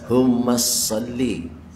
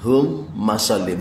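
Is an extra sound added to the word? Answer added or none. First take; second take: added; none. First: It is said with an extra sound added. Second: It is said without an extra added sound. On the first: The speaker calls it wrong. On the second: The speaker calls it right.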